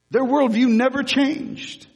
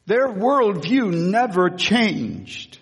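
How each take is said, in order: First: Their worldview never changed, much higher and emphatic; emphatic repeat. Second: Said in the usual way. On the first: Shown as a demonstration.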